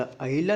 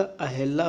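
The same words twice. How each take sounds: First: अहिला with an "i" in the middle; "hi" before laa in अहिला; wrong form. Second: अहिला said as a-hel-laa; vowel "e", not "i", in अहिला; correct form. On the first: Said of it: "नहीं होता". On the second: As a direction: open "he" in the middle of अहिला. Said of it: "होता है". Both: Shown as a demonstration.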